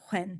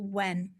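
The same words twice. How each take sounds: First: It is said in a Scottish accent. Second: It is said in a standard English accent.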